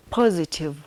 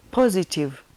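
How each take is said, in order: Both takes have the same delivery.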